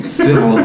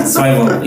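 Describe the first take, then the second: First: Swivel said siv-el, short i. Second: Swivel said sigh-vel, long i. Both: Shown as a demonstration. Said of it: "is it Swivel or Swivel?".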